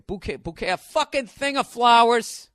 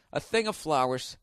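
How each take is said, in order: First: Mock fancy then blunt. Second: Said in the usual way. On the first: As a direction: sneer at the fancy word bouquet, then blurt the blunt version. Mocking the word bouquet. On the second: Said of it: "That was literally Porky Pig's bit".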